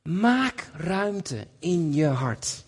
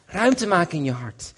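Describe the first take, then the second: First: "Maak ruimte in je hart" very slowly, every word weighed; slow emphasis. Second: Said in the usual way. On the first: Shown as a demonstration. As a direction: let "Maak" land and stretch the line out slowly. (langzaam en nadrukkelijk "Maak ruimte in je hart")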